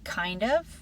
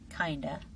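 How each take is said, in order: First: Both words are pronounced fully and separately. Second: The words are blended into one short form.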